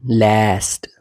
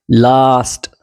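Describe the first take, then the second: First: लास्ट with the vowel of cat; American "ae" sound. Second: लास्ट with a long open "ah"; British "ah" sound. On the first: Teacher contrasts the vowels, American pronunciation. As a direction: say लास्ट as "laest". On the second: Teacher contrasts the vowels, British pronunciation. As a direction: say लास्ट as "lahst". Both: Shown as a demonstration. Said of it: "आ और ए याद रखना".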